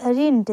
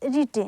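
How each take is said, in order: First: रिंट said with a nasal n before the t; रिंट with the extra n sound; wrong first try. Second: रिट said short, with no n before the t; रिट, short i and plain t; corrected to रिट. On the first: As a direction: says रिंट, then corrects it. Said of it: "sorry, ये". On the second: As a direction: fixes रिंट to a clean रिट. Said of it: "sorry". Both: Shown as a demonstration.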